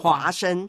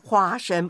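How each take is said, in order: First: The word is said with an altered sound. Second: The word is said with its standard sound. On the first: The speaker calls it wrong. "请你不要变音好吗？" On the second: The speaker calls it right. "花生不是花生"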